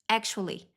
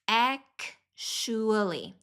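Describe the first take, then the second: First: The word is said quickly and smoothly. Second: The word is said slowly and carefully. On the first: "mais avançado"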